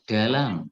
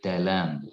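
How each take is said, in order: First: The d is a plain Jakarta Indonesian d. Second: The d is made with the tongue forward. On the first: The speaker calls it wrong. "bukan D bahasa Indonesia Jakarta ya" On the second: The speaker calls it right. "lidahnya itu agak dibuka, dimajukan ke depan"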